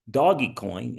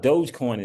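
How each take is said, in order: First: The first part is said as two syllables. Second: The first part is said as one syllable. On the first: The speaker calls it wrong. "all you can get out of Dogecoin is doggy coin" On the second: The speaker calls it right. "if you can't pronounce that properly"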